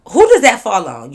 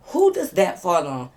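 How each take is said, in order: First: Louder, pressing question; loud question to viewers. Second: Said in the usual way. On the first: Shown as a demonstration. Asking viewers who is to blame, loud and pressing. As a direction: demand an answer from viewers. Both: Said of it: "Y'all answer".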